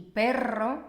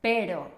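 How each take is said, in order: First: "perro" with a trilled rr; strong R. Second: "pero" with a single tapped r; soft R. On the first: Teacher giving an example of the two Rs, strong R. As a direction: say "perro" rolling the double r. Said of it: "como la R fuerte". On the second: Teacher giving an example of the two Rs, soft R. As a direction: say "pero" with one light tap of the tongue. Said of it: "tanto la R suave". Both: Shown as a demonstration.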